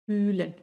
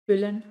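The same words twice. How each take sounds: First: Long, held Ü in "fühlen"; long vowel. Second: Short Ü in "füllen"; short vowel. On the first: Teacher showing learners the long vowel in "fühlen". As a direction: stretch the first vowel of "fühlen". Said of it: "una vocal larga". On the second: Teacher showing learners the short vowel in "füllen". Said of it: "una vocal corta". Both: Shown as a demonstration.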